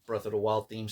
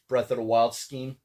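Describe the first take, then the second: First: "theme" said right with a soft th start; quiet fix, "theme" with th not sk; self-correction. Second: "scheme" said by mistake with a clear sk start; casual slip, "scheme" instead of theme; slip of the tongue. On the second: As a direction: says "scheme" where "theme" was meant. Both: Real, not acted. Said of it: "I said scheme".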